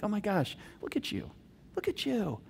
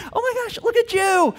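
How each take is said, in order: First: Soft, hushed admiration; tender praise. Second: Very high, gushing amazement; delighted praise. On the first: Dad to snarking daughter after she obeyed, tender praise. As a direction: marvel quietly and affectionately. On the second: Dad cheering daughter obeying while fighting, gushing praise. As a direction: burst out with proud surprise. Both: Acted.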